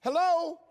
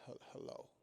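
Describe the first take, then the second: First: Loud, high, eager hello; over-the-top cheerful pickup; wide-awake phone answer. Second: Very soft, faltering sleepy hello; barely awake pickup; groggy phone answer. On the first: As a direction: pounce on the call with huge energy. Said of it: "you've learned how to wake up". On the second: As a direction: answer as if just woken and unhappy about it. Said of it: "answering the phone like something's wrong". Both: Acted.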